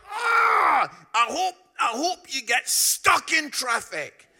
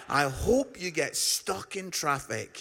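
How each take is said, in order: First: Loud, high, furious yell over the fence; angry shout. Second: Said in the usual way. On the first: Retold or imitated. Derek yelling at Chelsea fans through the fence, furious shout. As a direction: bellow it at the rival fans in a rage. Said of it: "He was so angry". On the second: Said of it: "what a great chant that is".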